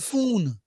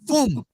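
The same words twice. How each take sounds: First: The word ends with an n sound. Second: The word ends with an m sound. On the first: The speaker calls it right. "P H O N E" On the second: The speaker calls it wrong. "F O A M"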